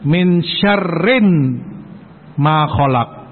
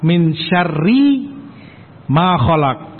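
First: The word syarrin ends with an n sound. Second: The word syarri ends without an n sound. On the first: Protection is sought from the evil that God did not create. The speaker calls it wrong. "mereka selewengkan dengan dibaca tanwin" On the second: Protection is sought from the evil that God created. The speaker calls it right. "Demikian dengan idhofah"

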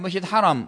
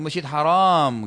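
First: The second vowel of haram is short. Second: The second vowel of haram is long. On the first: The mosque is honored and sacred. The speaker calls it right. "Mesti saya pulang dari masjid haram" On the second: The mosque is forbidden. The speaker calls it wrong. "jangan Anda bilang ... Itu salah"

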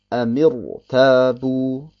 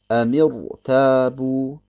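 First: A short i vowel comes between m and r. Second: The same.

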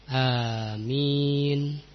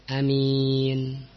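First: The first vowel is held long. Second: The first vowel is kept short. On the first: "tetapi amin dengan mad" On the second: "A-nya pendek"

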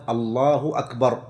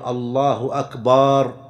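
First: No vowel is drawn out in either word. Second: The vowel after b in the last word is drawn out. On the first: It states that God is the greatest. The speaker calls it right. "لا بد أن تكون بهذا اللفظ الله أكبر" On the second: The last word becomes a word for drums. The speaker calls it wrong. "أن يمد الباء بأن يقول الله أكبر"

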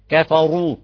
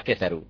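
First: The r is heavy, with the tongue raised. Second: The r is light, with the tongue low. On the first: The speaker calls it right. "مشان نجيب تفخيم الراء بدنا نرفع اللسان رفعة جيدة" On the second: The speaker calls it wrong. "يخلي لسانه نايم تحت كثروا تطلع كثروا"

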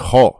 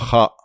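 First: The kha is said heavy, with a darkened vowel. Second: The kha is said light, with a clear vowel. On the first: The speaker calls it right. "il y a ce qu'on appelle le tafrim. Donc on dit kha" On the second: The speaker calls it wrong. "et on dit pas kha"

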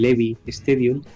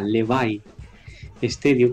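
First: The name is said with Spanish pronunciation. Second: The name is said with English pronunciation. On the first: "sería en castellano nuestro" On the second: "en inglés se pronuncia"

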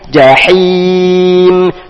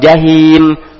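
First: The h is a deep, tense throat h. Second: The h is a plain, light breathy h. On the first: The speaker calls it right. "Di sini ada huruf ha ... tapi jahim" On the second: The speaker calls it wrong. "jangan jahim"

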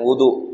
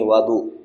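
First: The first vowel is an u sound. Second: The first vowel is an a sound. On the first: It names the act of washing itself. "bukan wudu" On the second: It names the water used for washing. "Bi fathil waw, dengan di fathah huruf wawnya"

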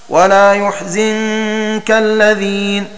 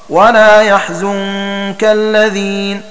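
First: The verb begins with yu and has zi. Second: The verb begins with ya and has zu. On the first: "بضم الياء وكسر الزاي" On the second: "بفتح الياء وضم الزاي"

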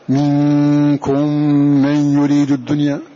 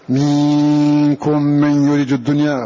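First: The vowel before the nasal sound stays short. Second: The vowel before the nasal sound is lengthened. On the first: The speaker calls it right. "ولا نشبع الحركة حتى لا يتولد منها هذا المد" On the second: The speaker calls it wrong. "هذا خطأ"

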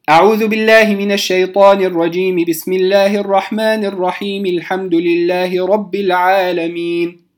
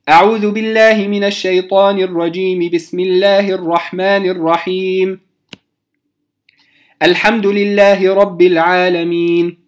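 First: All three phrases run together without any pause. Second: The first two phrases join, then a pause follows. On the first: "أن أصل الجميع" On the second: "وصلت الاستعاذة بالبسملة ووقفت، ثم بدأت بالحمد لله رب العالمين"

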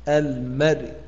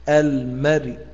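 No difference in how they are said.

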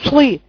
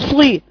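Both takes have the same delivery.

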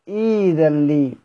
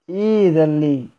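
No difference in how they are said.

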